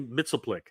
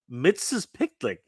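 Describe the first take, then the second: First: The name is said as mitzel-plick. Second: The name is said as mixes-pitlick. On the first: This is how the speaker says the name. "I say Mitzelplick" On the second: This is how a viewer says the name. "That's how you pronounce it?"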